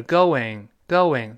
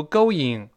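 First: "going" as go-wing, with a clear w glide; linking w in going. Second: "going" as go-ying, without a w glide; mispronounced going. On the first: Teacher models linked vowels for learners, slow going with a w glide. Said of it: "要加一个喔". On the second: Teacher shows learners what to avoid, going without the w glide. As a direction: say "going" with no w between the vowels. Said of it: "不要读going". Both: Shown as a demonstration.

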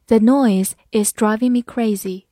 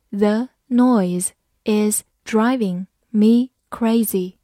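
First: Said in the usual way. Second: Slowly, one word at a time; slow reading. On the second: Shown as a demonstration. Teacher reading an example once for students, slow and separated. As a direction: spell the sentence out word by word, unhurried. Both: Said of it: "好，慢读一遍".

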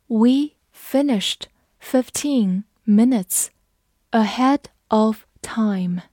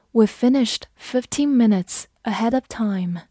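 First: Word by word, slow, with clear pauses; slow read-along. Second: Said in the usual way. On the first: Shown as a demonstration. Teacher modelling the finishing-early sentence, slowly. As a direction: pace it slowly for learners to repeat.

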